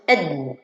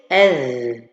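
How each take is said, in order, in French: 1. La consonne finale est pressée fortement et arrêtée. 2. La consonne finale s'écoule doucement avec un souffle continu. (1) "On dirait que je lui donne shadda" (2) "Je dois lui donner ar-rakhawa"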